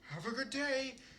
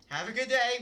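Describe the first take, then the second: First: It sounds warm and natural, like a mother. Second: It sounds flat and robotic, like Siri.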